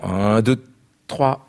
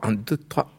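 First: The second count comes early, unevenly spaced. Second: The counts come at even, regular intervals. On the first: It evokes the irregular Viennese waltz. "avec ce roubateau qui fait qu'on anticipe le second temps" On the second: It evokes the straight, regular Parisian waltz. "on va plus tout droit"

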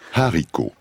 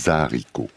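First: The word starts cleanly with no linking sound. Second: A z sound links onto the word's start. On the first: The speaker calls it right. "se prononce avec un H aspiré" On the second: The speaker calls it wrong. "pas haricot. On ne fait pas la liaison"

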